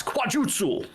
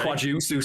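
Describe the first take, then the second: First: "Quajutsu" exclaimed high; mock martial-arts cry. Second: Said in the usual way. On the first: After explaining frog martial arts, a playful high cry of "Quajutsu".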